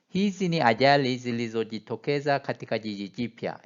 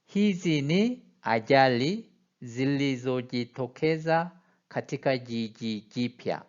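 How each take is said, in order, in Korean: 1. 이 문장은 빠르게 읽습니다. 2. 이 문장은 더 느리게 읽습니다. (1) "이걸 좀 빨리 읽어보면" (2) "제가 한번 읽어보겠습니다"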